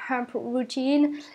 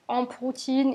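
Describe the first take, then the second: First: The name is said with an English accent. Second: The name is said with a French accent. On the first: The speaker wants to pronounce it properly. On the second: The speaker wants people to understand it.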